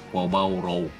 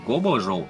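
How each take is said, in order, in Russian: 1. Название начинается с огубленного звука 'kwa'. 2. Название начинается с простого звука 'ko'. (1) "а куабао-роу" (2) "более правильное название будет не кобо-жоу"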